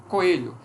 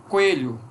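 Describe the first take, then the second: Both takes have the same delivery.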